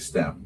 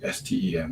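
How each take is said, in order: First: It is pronounced as a single word. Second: It is spelled out letter by letter. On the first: The speaker calls it right. "we say STEM" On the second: The speaker calls it wrong. "we don't say STEM"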